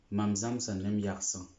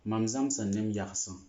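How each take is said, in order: Both takes have the same delivery.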